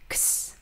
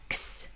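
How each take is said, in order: No difference in how they are said.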